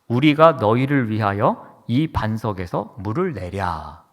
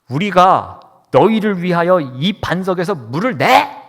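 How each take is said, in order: First: It is read quietly and calmly. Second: It is read in a heated, angry voice. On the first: "제가 얌전히 읽었습니다" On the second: "격앙된 상황에서 격앙된 표현으로 한번 읽어보겠습니다"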